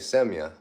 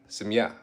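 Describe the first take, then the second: First: The final syllable is not stressed. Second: The final syllable is stressed. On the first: "Am I pronouncing that right?" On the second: "Stress the ja"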